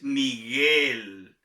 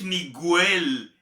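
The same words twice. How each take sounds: First: The u after the g is silent. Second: The u after the g is pronounced. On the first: The speaker calls it right. "es Miguel" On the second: The speaker calls it wrong. "no es Miguel"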